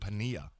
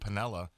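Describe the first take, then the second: First: The double L is said as a Y sound. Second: The double L is said as an L sound. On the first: The speaker calls it right. "the L is a Y. Double L in Spanish is Y" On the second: The speaker calls it wrong.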